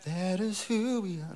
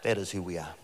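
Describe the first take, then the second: First: Lifted, call for response; a raised call to the congregation; higher, prompting echo. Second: Said in the usual way. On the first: Shown as a demonstration. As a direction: sing it up high so they answer back.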